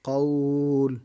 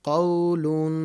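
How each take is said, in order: First: The word stops on the final 'l'. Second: The word ends with a nasal '-un' ending. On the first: The reader stops on this word. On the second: The reading continues without stopping.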